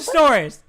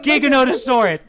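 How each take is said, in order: First: It begins with a soft 'j' sound. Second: It begins with a hard 'g' sound. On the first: The speaker calls it right. "just like it's pronounced General" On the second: The speaker calls it wrong. "not Giganotosaurus"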